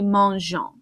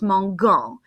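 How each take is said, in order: First: The g is soft, like a zh sound. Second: The g is hard, as in go. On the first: The speaker calls it right. "so it needs to be mangeant" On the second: The speaker calls it wrong. "without the E, that would be pronounced mangan, and that's kind of gross"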